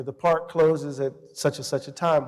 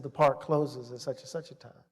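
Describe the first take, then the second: First: Said in the usual way. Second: Retold officer's warning, low-key and softer; quiet warning. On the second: Officer to student, hand on his weapon, quiet retold warning. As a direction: lean in and repeat the rule quietly.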